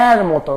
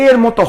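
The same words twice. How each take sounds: First: এর মতো with open "ae" in এর; এর মতো, first vowel wide "ae"; correct vowel sound. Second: এর মতো with closed "e" in এর; এর মতো, first vowel narrow "e"; rejected vowel sound. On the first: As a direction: say এর as "aer" in এর মতো. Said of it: "হয় কি এর মতো". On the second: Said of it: "এর মতো হয় না". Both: Shown as a demonstration.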